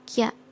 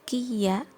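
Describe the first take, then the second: First: The i is dropped, giving one syllable. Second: The i is kept, giving two syllables. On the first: The speaker calls it right. "tapi kya, i-nya dihilangkan" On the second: The speaker calls it wrong. "bukan kiya"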